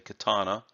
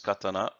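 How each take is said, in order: First: It is said with an English-style pronunciation. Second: It is said with a Japanese-style pronunciation. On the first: The speaker calls it wrong. "in the Western tongues you'd say katana" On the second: The speaker calls it right. "properly said as katana"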